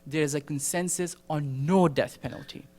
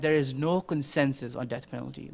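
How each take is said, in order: First: NO death penalty, with NO picked out; NO death penalty, stressed as the correction. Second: NO consensus, with NO picked out; NO consensus, stressed as the rejected claim. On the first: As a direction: lean on NO before death penalty. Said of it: "The answer is". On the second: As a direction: lean on NO before consensus. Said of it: "the answer isn't". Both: Shown as a demonstration.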